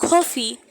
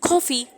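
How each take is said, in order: No difference in how they are said.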